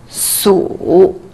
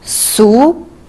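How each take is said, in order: First: The pitch dips low and then rises. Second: The pitch rises from middle to high.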